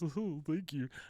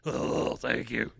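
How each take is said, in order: First: It is said in a plain, ordinary voice. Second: It is said in a rough, gravelly voice.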